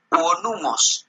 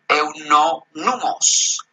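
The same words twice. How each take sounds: First: "euonumos" sounded out as eu-o-NU-mos; corrected pronunciation. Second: "eunomos" misread with an N after "eu"; slow stumbling reading of "eunomos"; mistaken pronunciation. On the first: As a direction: carefully give "euonumos" its extra O. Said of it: "así se pronuncia". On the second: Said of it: "No, es". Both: Shown as a demonstration.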